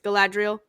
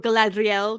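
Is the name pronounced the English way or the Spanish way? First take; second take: English; Spanish. First: The name is said with English pronunciation. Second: The name is said with Spanish pronunciation.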